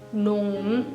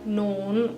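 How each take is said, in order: Both takes have the same delivery.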